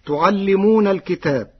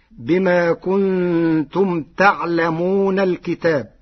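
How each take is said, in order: First: Said in the usual way. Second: تعلمون slowly with fatha on ta and sukun on ayn; Warsh reading. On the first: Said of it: "قرأ ورش كلمة تعلمون". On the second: Shown as a demonstration. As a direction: say تعلمون as taʕlamuna. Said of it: "بفتح التاء وسكون العين". (تعلمون بفتح التاء وتخفيف اللام)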